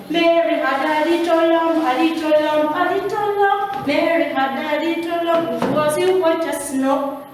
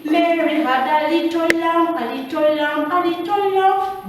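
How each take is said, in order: First: Nursery rhyme sung higher, with B sounded in "lamb"; singing, mispronounced lamb. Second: Nursery rhyme sung higher, "lamb" ending on M; singing, correct lamb. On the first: Retold or imitated. Teacher imitating people singing wrongly, nursery song with B in "lamb". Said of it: "hearing people singing". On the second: Shown as a demonstration. Teacher correcting the nursery song, sung with silent B in "lamb". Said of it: "It is supposed to be".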